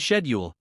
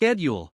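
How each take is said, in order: First: It is said with a British pronunciation. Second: It is said with an American pronunciation. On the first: "in the U K, it's often schedule" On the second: "while in the U S, it's schedule"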